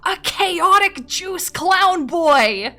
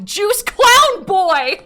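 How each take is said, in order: First: High, loud, slow laughing cry; laughing shout. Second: High, loud, slow laughing wail; mock-crying shout. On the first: Streamer repeating her own nickname, laughing shout. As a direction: wail it through laughter. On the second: Streamer mocking her younger self, laughing shout. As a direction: howl it out at yourself. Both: Real, not acted.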